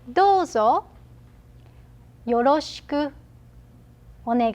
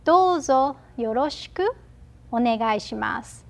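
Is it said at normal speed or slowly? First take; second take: slowly; normal speed. First: It is said slowly. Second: It is said at normal speed.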